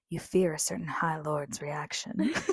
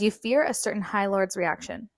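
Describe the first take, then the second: First: It is read in a put-on character voice. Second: It is read in the speaker's ordinary voice.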